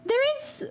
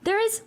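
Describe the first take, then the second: First: The voice is pitched very high. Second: The voice is pitched noticeably lower.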